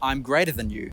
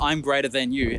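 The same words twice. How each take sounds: First: The middle word is said like 'than'. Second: The middle word is said like 'then'. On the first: This is the later, separate form of the word. "ended up being" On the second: This is the older form of the word. "what started was"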